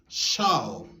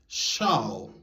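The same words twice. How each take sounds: The two takes are said the same way.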